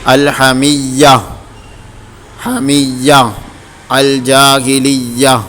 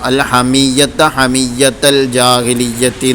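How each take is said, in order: First: The words end with a silent h sound. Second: The words end with a t sound. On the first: The reader stops at these words. "വഖഫ് ചെയ്യുകയാണെങ്കിൽ ... ഹാഇന് സുക്കൂൻ ചെയ്തുകൊണ്ട്" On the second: The reading continues without stopping. "കൂട്ടി ഓതുന്ന സമയത്ത് താ ആയിട്ട് തന്നെ ഉച്ചരിക്കുന്നു"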